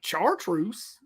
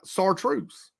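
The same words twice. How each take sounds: First: It begins with a hard 'ch' sound. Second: It begins with a soft 'sh' sound. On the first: The speaker calls it wrong. "I'm not saying it chartreuse, spelled with C H" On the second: The speaker calls it right. "because I think I'm saying it right"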